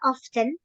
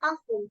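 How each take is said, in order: First: The T sound in the middle is pronounced. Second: The T sound in the middle is silent. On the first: "Ada yang tetap dibaca T-nya often" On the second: "T-nya di silent. Jadinya kita nggak baca T-nya, jadinya langsung often"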